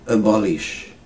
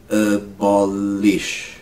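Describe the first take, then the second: First: Said in the usual way. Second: "Abolish" slow, each syllable held. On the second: Shown as a demonstration. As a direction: stretch "Abolish" out for learners. Teacher slows word into syllables.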